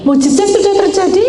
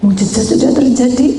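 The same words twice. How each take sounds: First: Much higher, loud declaration; soaring proclamation. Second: Loud declaration; proclaiming. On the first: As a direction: lift it higher the second time. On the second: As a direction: announce the miracle. Repeated proclamation. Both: Acted.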